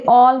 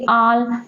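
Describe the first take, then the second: First: The word has the standard English vowel. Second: The word has a local-accented vowel. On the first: The speaker calls it right. "जैसे ऑल" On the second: The speaker calls it wrong. "वो बोलेंगे आल"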